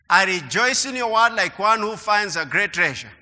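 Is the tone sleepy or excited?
sleepy. It is read in a flat, sleepy tone.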